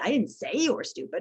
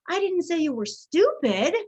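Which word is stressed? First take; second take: say; stupid. First: The stress falls on the word say. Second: The stress falls on the word stupid. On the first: It was thought but not said. "I think you were stupid, but I didn't say it" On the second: Something else was said about the listener. "I said you were something else"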